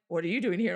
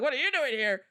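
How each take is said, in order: First: "What are you doing here?" lower with weight on "here"; stress on here. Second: "What are you doing here?" with weight on "you" thrown back; stress on you. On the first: A surprised Caucasian asking her why she is there, stressing "here". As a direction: ask it with puzzled weight on "here". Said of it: "they're just kinda like". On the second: She answers the surprised foreigner, stressing "you". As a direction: turn the question around by hitting "you". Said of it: "I'm like". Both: Retold or imitated.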